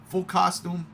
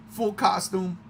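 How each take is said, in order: Both takes have the same delivery.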